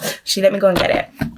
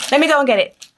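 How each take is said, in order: First: Said in the usual way. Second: Pitched higher, bouncy; sing-song repeat. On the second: Real, not acted. Repeating to viewers as she goes to fetch the book, sung-out higher. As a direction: sing it out as you head off.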